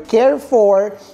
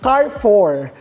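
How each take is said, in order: First: The name does not sound like 'car four'. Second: The name sounds like 'car four'. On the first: This is how the name used to be said. "ang pagkakabigkas ko nga dun sa Carrefour dati" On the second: This is the researched pronunciation. "parang apat na sasakyan"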